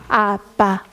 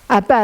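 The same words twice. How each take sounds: First: The vowel is said with the mouth wide open. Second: The vowel is said with the mouth barely open. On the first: The speaker calls it right. "입이 저절로 벌려지면" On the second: The speaker calls it wrong. "이가 안 벌어지는 우리 아이들이 이렇게 얘기하죠"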